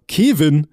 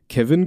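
First: KEVIN drawn out, loud, oddly stressed; oddly stressed name. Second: Said in the usual way. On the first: Retold or imitated. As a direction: call out "Kevin" with a long, exaggerated first syllable. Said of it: "so ganz komisch". („Kevin“ ganz komisch betont, laut und gedehnt) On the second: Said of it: "sondern Kevin".

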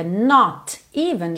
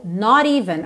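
First: "not even" with a clear T, unlinked; separate words. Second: "not even" joined with a tapped T, "nor-even"; linked flap. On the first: Teacher shows the words before linking, "not even" separated. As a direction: say "not" and "even" apart, T sounded. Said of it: "juntou not even". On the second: Teacher shows joined speech, "not even" with tapped T. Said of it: "agora rarará mesmo". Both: Shown as a demonstration.

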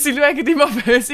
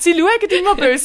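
First: Lachend wiederholt: immer böse. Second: Laut und hoch: immer böse; übertrieben empört. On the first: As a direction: kichernd nachgeschoben. (lachend wiederholt) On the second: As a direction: mit Nachdruck auf immer. (übertrieben laut empört) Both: Pretend.

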